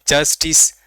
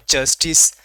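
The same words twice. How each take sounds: The two takes are said the same way.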